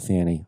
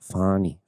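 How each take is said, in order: First: The first vowel sounds like the one in 'cat'. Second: The first vowel sounds like the one in 'father'. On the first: The speaker calls it wrong. "not Fannie" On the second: The speaker calls it right. "Fonnie, not Fannie"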